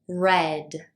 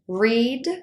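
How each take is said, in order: First: The word is said with a short 'e' vowel. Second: The word is said with a long 'ee' vowel. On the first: It is the past tense form. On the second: It is the present tense form.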